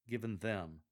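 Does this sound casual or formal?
formal. It sounds more formal and careful. "rather than"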